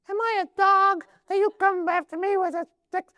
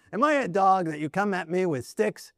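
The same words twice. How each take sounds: First: Very high, squeaky comic giant; silly high falsetto taunt. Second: Said in the usual way. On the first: Acted. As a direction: squeak it out as an absurdly high-pitched Philistine. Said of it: "maybe he had a squeaky voice".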